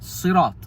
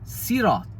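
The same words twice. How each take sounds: First: It begins with a heavy, emphatic s sound. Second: It begins with a light, plain s sound. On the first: "The Arabic word Sirat is with a sad" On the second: "would say Sirat with a sin"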